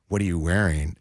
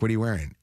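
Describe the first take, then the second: First: The question is asked in a creepy, suggestive tone. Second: The question is asked in a quick, casual tone. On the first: The caller seems to have an improper interest. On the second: The caller is just asking in passing.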